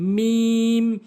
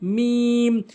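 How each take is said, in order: The two takes are said the same way.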